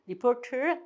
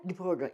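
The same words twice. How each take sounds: First: 리포트 said "ri-po-ter" with a distinct t; clear t. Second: 리포트 lower, said "ri-po-der". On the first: Teacher contrasting two takes, clear t. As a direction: sound the t in 리포트, r at the end. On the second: Teacher contrasting two takes, t like d. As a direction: blur the t of 리포트 into d. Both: Shown as a demonstration. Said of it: "드 소리 비슷하게".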